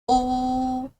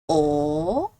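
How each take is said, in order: First: It is said with the first tone. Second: It is said with the second tone. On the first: "First tone" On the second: "Second tone"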